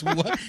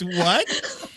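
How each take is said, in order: First: Said in the usual way. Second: A laughing "What?"; "What?" asked through a laugh. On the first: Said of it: "And she goes". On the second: Retold or imitated. Wife laughing at husband's question, laughing. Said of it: "She goes".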